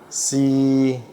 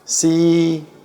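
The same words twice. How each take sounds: First: It is said in the third tone. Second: It is said in the first tone. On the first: "Yang ketiga" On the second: "yang pertama"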